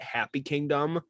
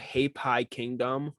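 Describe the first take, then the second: First: The first word sounds like 'happy'. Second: The first word does not sound like 'happy'.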